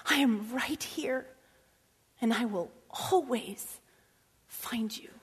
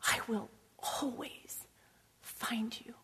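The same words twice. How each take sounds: First: Slow hushed comfort from God. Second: Tender daddy. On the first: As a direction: reassure gently, like a father. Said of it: "And God is saying". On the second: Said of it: "like a good daddy". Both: Retold or imitated.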